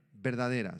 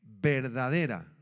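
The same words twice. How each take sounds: First: Said in the usual way. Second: Verdadera, said loud and drawn out; emphatic answer. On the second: Shown as a demonstration. Preacher answering his own question to the congregation, loud and slow. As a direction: hammer home verdadera slowly and loudly. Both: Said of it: "La palabra es, ¿qué?".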